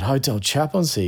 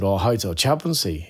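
First: "Hotel Chaplaincy" said higher, each word spelled out; patient, emphatic repeat; repeated clearly for a mishearing. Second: Said in the usual way. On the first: Retold or imitated. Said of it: "Hotel security?". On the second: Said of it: "Hotel what?".

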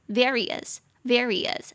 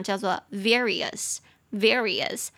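First: Various said slowly and falling at the end; slow various again, falling. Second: Various said slowly, stress on the first syllable. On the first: Teacher repeating various after spelling it out. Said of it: "va-, V A re". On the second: Teacher modeling various slowly for the class. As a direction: draw out various twice, clearly. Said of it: "各式各样的". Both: Shown as a demonstration.

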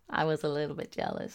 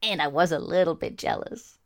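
First: A much softer, quicker mutter of the confession; quiet aside. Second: Said in the usual way. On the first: Real, not acted. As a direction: tuck it away as a hushed sheepish echo.

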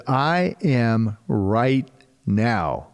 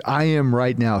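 First: "I am right now" drawn out slowly, every word weighted; slow emphatic. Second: Said in the usual way. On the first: Shown as a demonstration. Preacher stressing the Message translation, slow and weighty. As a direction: lay each word down slowly. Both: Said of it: "Write that down someplace".

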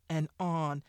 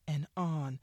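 No difference in how they are said.

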